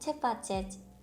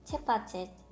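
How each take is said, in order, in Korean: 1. 마지막 i는 거의 묵음입니다. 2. 마지막 i는 거의 묵음입니다.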